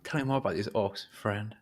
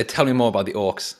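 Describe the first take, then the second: First: Softer, friendly ask; nicer way. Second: Loud, harsh demand. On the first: Shown as a demonstration. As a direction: coax him gently. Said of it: "In a, in a nicer way, though". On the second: Acted. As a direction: bark the question at the goblin. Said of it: "In a, in a nicer way, though. Not, not, not with that harsh tone of voice".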